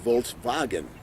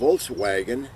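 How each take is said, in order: First: The second part starts with a V sound. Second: The second part starts with a W sound. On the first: This is how Germans say it. "They pronounce the W as a V" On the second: This is how Americans say it. "like we would say in America"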